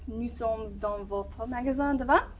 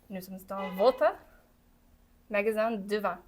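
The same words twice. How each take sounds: First: It is spoken at a normal, continuous pace. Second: It is spoken slowly, in separate chunks. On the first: "I said it right the first time" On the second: "The second time going slowly"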